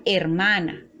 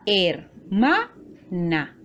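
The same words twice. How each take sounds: First: Said in the usual way. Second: Hermana slowly split into her, ma, na; syllable by syllable. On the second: Shown as a demonstration. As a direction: say hermana in three separate, drawn-out syllables. (hermana, lento y separado en sílabas) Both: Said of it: "está formada por tres sílabas".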